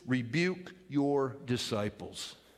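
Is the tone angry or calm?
calm. The words are said calmly and evenly. The speaker calls it wrong. "And I don't think they said it like that"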